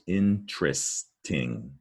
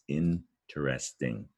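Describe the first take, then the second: First: The word is said with three syllables. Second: The word is said with four syllables. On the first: "a lot of people pronounce it with three syllables" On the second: "but it's"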